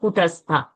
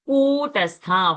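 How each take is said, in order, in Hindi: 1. पहला स्वर छोटा बोलते हैं। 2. पहला स्वर लंबा खींचते हैं। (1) "It's not Kutastha" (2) "hold the Ku little longer"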